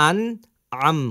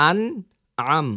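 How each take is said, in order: The two takes are said the same way.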